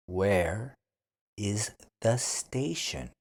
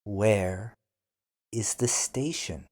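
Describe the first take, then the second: No difference in how they are said.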